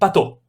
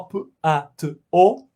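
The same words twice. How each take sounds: First: The sounds are blended quickly into one word. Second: Each sound is said slowly and separately. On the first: The sounds form a recognizable word. "se eu ler bem rápido" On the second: The separate sounds convey nothing. "Se eu ler só p-a-t-o"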